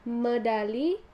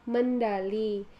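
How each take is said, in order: First: There is no n sound before d. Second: An n sound is added before d. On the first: The speaker calls it right. "kata medali" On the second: The speaker calls it wrong. "penambahan fonem N"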